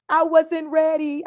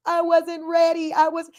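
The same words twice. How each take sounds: First: High, slow, put-on comic voice; Kevin Hart impression. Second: Kevin Hart impression. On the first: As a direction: do a Kevin Hart bit, drawn out. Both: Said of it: "in my Kevin Hart voice".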